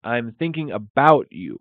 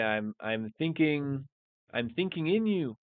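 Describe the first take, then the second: First: Louder, firm stress on about; correct version. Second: Questioning the word in, pitch rising; wrong version. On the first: Teacher gives the correct phrase to students, firm and clear. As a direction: land about clearly as the right word. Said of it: "So we would say". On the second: Teacher tests the wrong English phrase, questioning. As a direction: try out thinking in like a doubtful learner. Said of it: "What would be the correct way". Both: Shown as a demonstration.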